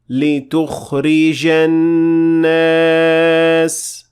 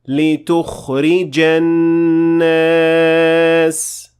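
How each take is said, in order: The two takes are said the same way.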